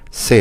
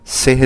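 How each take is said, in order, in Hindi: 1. शब्द 'se' स्वर पर खत्म होता है, 'h' नहीं है। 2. शब्द 'se' के आखिर में 'h' की आवाज़ सुनाई देती है। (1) "से होता है" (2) "सेह नहीं होता लफ्ज"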